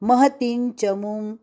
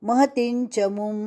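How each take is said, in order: Both takes have the same delivery.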